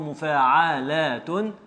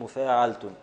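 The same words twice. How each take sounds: First: The word has five syllables. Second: The word has four syllables. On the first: This is the original form of the metrical foot. "أصله مفاعلة" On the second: This is the foot with its fifth letter made silent. "فنسكن هذا الخامس المتحرك فتصير مفاعلة"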